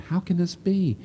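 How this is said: It sounds sincere and humble, genuinely wanting an answer.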